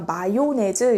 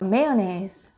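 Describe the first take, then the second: First: The first syllable has an 'ah' vowel. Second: The first syllable has an 'ay' vowel. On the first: The speaker calls it wrong. "우리가 마요네즈 이렇게 내음절로 된 어, 단어라고 이해를 많이 하고 계신데" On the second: The speaker calls it right. "미국식, 영국식 전부 다 메요네즈라고 발음을 해요"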